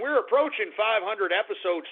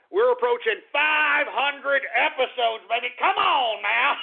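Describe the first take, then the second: First: Said in the usual way. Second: Pumped-up and jubilant; excited boasting. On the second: Real, not acted. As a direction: crow proudly about the milestone. Boasting of the milestone again.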